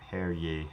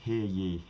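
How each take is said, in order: First: Hear is said with a vowel like 'air'. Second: Hear is said with a vowel like 'ear'.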